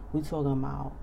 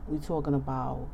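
No difference in how they are said.

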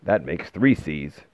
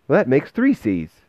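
First: Slow, measured man's delivery; unhurried older character voice; gruff man's voice. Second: Put-on high, loud child voice; bright-eyed boy piping up; young boy's voice. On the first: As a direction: say it slowly in the man's lower voice. Man's voice against boy's repeat. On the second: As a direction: pitch it well up like a small boy. Boy's voice repeating the line. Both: A narrator's reading.

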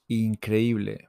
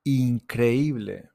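First: Said in the usual way. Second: Increíble, drawn out syllable by syllable; slow model word. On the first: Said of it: "repeat at normal speed". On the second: Shown as a demonstration. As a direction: spell out «Increíble» slowly for learners. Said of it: "slow model pronunciation".

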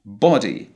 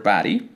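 First: Body with a short rounded O; British closed O. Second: Body with an ah vowel; American open O. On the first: Teacher showing the British vowel, closed O. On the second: Teacher introducing the example word, American open O. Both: Shown as a demonstration. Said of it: "the British will pronounce a closed O sound".

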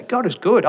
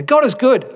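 First: Firm, sincere declaration, a bit higher; earnest believer affirming God is good; confident affirmation. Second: Much higher and louder, overly bright; a churchgoer's chirpy slogan before griping; hammed-up cheerful. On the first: Pretend. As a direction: state it like a creed. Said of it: "you say". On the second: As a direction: sing it out with forced cheer. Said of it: "doesn't it sound a little odd?".

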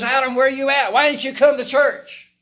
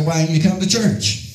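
First: High, loud cry across the garden; hollered call. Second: Said in the usual way. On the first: Acted. God hollering out for Adam. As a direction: call out Adam's name like a shout. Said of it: "he hollers out". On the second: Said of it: "Look at somebody and say".

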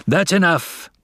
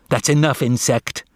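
First: High, angry cut-in; fiery father, pitch raised; blazing anger. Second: Higher, irritated put-down; scornful snap; snapped. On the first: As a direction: cut him off hotly. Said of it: "blazed Father". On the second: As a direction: snap to shut him up. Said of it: "snapped Julius". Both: A narrator's reading.

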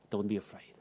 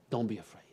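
First: Softer, gentle promise; soft reassurance. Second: A voiceless whisper of comfort; whispered reassurance. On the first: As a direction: comfort a frightened listener. Jesus quote, first take. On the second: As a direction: breathe it close to the ear. Repeated take, now whispered. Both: Acted.

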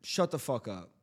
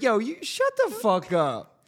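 First: Low, soft, casual put-down; understated hypothetical shut-down; changed tone. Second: High-pitched, drawn-out mock retort; raised-pitch pretend comeback; hypothetical outburst. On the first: Pretend. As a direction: drop the pitch and volume to test the tone. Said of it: "the tone, the tone". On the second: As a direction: throw it out high and slow, as if provoked. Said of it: "And you'd be like".

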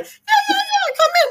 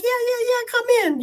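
First: Helpless laughter. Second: High and breathless with giggles; laughing welcome. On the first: Patient greeting stunned doctors, helpless laughter. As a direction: squeal it out, dying laughing. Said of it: "crying, laughing... Dying". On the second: To the doctors at the door, laughing welcome. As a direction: call them in mid-giggle. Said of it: "'cause I'm crying, laughing". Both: Retold or imitated.

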